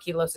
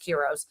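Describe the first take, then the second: First: The middle consonant is an L sound. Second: The middle consonant is an R sound. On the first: The speaker calls it wrong. "It's not Kilos" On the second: The speaker calls it right. "it's Kiros"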